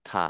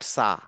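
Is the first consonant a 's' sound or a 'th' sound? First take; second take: th; s. First: It begins with a 'th' sound. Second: It begins with an 's' sound. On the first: The speaker calls it right. "এটা হচ্ছে থা" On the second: The speaker calls it wrong. "Not সা"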